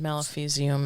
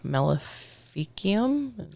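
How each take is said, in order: First: The C is said as a soft S sound. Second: The C is said as a hard K sound. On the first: Someone else said it this way. "You said Maleficium" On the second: This is the speaker's own familiar way. "I'm used to the the C being a hard K in certain instances"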